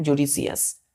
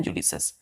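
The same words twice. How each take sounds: First: जुडिशियस with the written i sounded, ju-di-shi-yas; teacher showing the spelled-out form जुडिशियस with every syllable; spelling pronunciation. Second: जुडिशस said as ju-di-shas, with no i syllable; silent i. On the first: Teacher shows children the written form: जुडिशियस read letter by letter. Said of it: "आई लिखते हैं, लेकिन पढ़ते क्या है?". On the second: Teacher gives children the real sound: जुडिशस, i silent. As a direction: drop the i and say जुडिशस in three syllables. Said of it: "यहाँ पे आई silent हो जाता है". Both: Shown as a demonstration.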